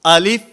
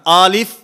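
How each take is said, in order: First: The first vowel is kept short. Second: The first vowel is drawn out long. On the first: The speaker calls it right. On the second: The speaker calls it wrong.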